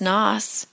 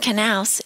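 First: The initial k sound is silent. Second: The initial k sound is pronounced. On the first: The speaker calls it right. "it's Noss" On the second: The speaker calls it wrong. "So your last name isn't Knaus"

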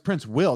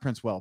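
First: The last syllable sounds like 'will'. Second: The last syllable sounds like 'well'. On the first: The speaker calls it right. "it's Prince Will" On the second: The speaker calls it wrong. "not Prince Well"

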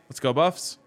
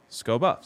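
First: Both words are said fully and separately. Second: The words blur fast into one syllable.

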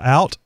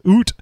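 First: It is said in a standard American accent. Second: It is said in a Canadian accent.

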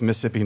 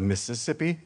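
First: It is said the local Southern way. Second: It is said the outsider, non-local way. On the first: The speaker is from there. The speaker calls it right. "it's Mississippi, if you're from Mississippi" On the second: The speaker is not from there. The speaker calls it wrong. "not Mississippi"

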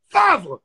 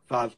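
First: The word is shouted loudly and sternly. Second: The word is said softly and quietly. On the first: "It's like if I'm yelling at her like I'm her dad" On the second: "So it's like favre, but like really quiet"

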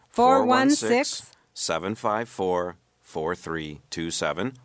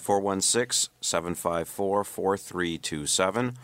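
First: The number is said slowly. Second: The number is said quickly.

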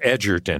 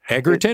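First: The g is soft, as in edge. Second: The g is hard, as in egg. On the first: The speaker calls it right. "It's Edgerton. as in over the edge" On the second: The speaker calls it wrong.

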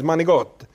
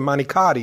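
First: The word is clipped and its final vowel dropped. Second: The word is said in full with its final vowel. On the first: The speaker calls it right. "it's manigot" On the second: The speaker calls it wrong. "It's not manicotti"

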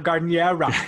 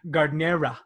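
First: The word is said loudly. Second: The word is said at normal volume.

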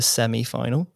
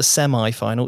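First: Semi-final is said with a British pronunciation. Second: Semi-final is said with an American pronunciation. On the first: The speaker calls it right. "It's the semi-final" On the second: The speaker calls it wrong. "It's not the semi-final"

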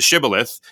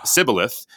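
First: The word begins with an sh sound. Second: The word begins with a plain s sound. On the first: The speaker belongs to the group. The speaker calls it right. "no, this is a shibboleth" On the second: The speaker is an outsider. The speaker calls it wrong. "And he says"

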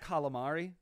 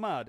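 First: The word is said with its final syllable. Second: The word ends without its final syllable. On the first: "It's not calamari" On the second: "lose the last syllable"

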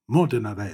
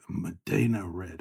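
First: Modena is said with an Italian pronunciation. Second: Modena is said with an English pronunciation.

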